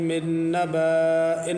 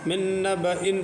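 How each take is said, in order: First: The vowel after the B is drawn out long. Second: The vowel after the B is kept short. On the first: The speaker calls it wrong. "नहीं पढ़ना है" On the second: The speaker calls it right. "पढ़ना है, अलिफ को नहीं पढ़ेंगे"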